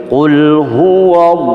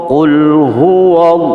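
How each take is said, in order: The two takes are said the same way.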